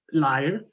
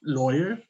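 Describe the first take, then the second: First: "liar" with a long I, LIE-er; "liar" set against "Lawyer". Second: "Lawyer" with an OY sound, law-yer; "Lawyer" set against "liar". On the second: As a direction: say "Lawyer" clearly as LOY-er. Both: Shown as a demonstration. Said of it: "Lawyer, liar".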